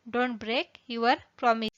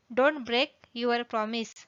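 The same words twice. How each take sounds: The two takes are said the same way.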